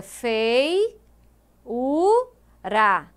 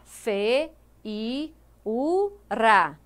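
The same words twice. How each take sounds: First: "fei, u, ra" as three separate syllables; correctly split syllables. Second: "fe, i, u, ra" as four separate syllables; wrongly split syllables. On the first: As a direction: keep "fei" as one gliding syllable, then "u", then "ra". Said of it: "os ditongos não se separam. Então fica". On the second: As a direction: split the diphthong, with "i" standing alone: "fe, i, u, ra". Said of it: "Se você separar, vai ficar". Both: Shown as a demonstration.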